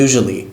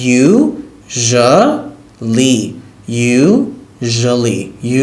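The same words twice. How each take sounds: First: Said in the usual way. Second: Usually stretched very slow, syllable by syllable; very slow model of usually; drawn-out pronunciation. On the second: Shown as a demonstration. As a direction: draw out usually so they can copy it. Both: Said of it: "প্রনাউন্সিয়েশনটা একটু কঠিন".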